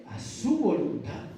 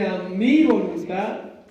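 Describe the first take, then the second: First: "su" given the weight as the right answer; settled answer stressing "su". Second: "mi" hit loud and slow; stress on mi. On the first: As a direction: land firmly on "A su voluntad". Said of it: "¿Es conforme a qué?". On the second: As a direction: lean hard on "a mi voluntad" as the wrong version. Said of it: "El texto no dice". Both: Shown as a demonstration.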